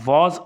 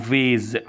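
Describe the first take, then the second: First: The vowel is a long open ah sound. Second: The vowel is an ay sound. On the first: "البريتش بيقولها فاز" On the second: "الاثنين صح"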